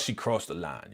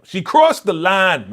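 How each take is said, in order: First: Said in the usual way. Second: Crossed drawn out, higher and louder; slow, emphatic verdict on crossed; stress on crossed. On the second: Real, not acted. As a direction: lean into crossed, slowly.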